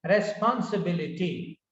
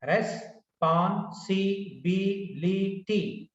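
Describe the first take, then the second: First: Said in the usual way. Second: "Responsibility" very slow, with pauses between its six syllables. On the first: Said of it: "if you take this word". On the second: Shown as a demonstration. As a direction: break "Responsibility" into six separate beats. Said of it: "Six syllables".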